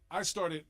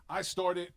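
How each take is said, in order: Both takes have the same delivery.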